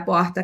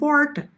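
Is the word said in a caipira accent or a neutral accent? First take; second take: neutral; caipira. First: It has a neutralized accent without strong regional features. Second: It has a strong caipira rural accent. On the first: This is not how the speaker really talks. "Se eu começar a falar assim com você, não vou ser eu" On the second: This is the speaker's own natural way of talking. "Eu falo que nem caipira. Eu falo porta"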